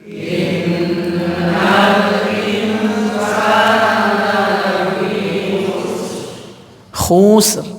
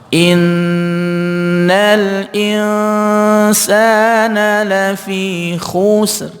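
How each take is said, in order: No difference in how they are said.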